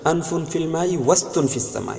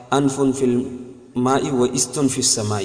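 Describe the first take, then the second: First: وستن read as one word, the hamza of استن silent; و joined straight onto ستن: وستن; correct reading. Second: و استن said slowly as two words with a sounded i; slow demo of the mistake, و then استن with the hamza read; wrong reading. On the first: Teacher shows students the right recitation, hamza dropped. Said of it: "صحیح پڑھایا جائے گا یوں". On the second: Teacher first recites the proverb the wrong way. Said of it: "اس کو و استن نہیں پڑھیں گے". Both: Shown as a demonstration.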